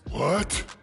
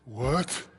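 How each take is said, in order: First: He sounds highly surprised. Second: He sounds mildly surprised.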